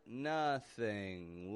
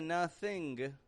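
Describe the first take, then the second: First: The ending is a plain ng with no g. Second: The ending has an audible released g sound. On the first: The speaker calls it right. "but nothing left" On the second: The speaker calls it wrong. "Notice it's not a nothing"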